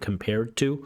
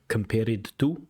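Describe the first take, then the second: First: The -ed ending sounds American-accented. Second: The -ed ending sounds Uzbek-accented. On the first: The speaker calls it right. "American compared to" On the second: The speaker calls it wrong. "like Uzbek E D sound"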